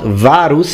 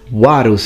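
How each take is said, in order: First: The word begins with a V sound. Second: The word begins with a W sound. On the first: The speaker calls it wrong. "like you would say in ecclesiastical pronunciation" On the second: The speaker calls it right. "it's a W"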